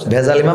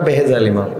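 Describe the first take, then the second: First: The first word is said as 'bhejal'. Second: The first word is said as 'behejal'. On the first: The speaker calls it wrong. "ভেজাল ইমাম না" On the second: The speaker calls it right.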